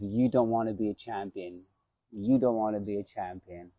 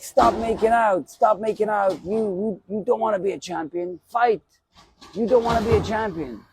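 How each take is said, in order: First: The way he said it. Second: Coach yelling. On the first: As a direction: say it quietly, the way he once said it. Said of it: "the way he said it". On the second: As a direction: bark at the fighter to stop clinching and fight. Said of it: "And he's like". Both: Retold or imitated.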